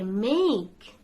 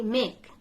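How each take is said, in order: First: "make" with long AY; correct pronunciation. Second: "make" with short vowel, MEK; mispronunciation. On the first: Teacher corrects common mistake, "make" with long AY. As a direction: stretch "make" out to MAYK. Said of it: "You can say make". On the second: Teacher recalls common mistake, "make" said short as MEK. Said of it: "We always used to say". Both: Shown as a demonstration.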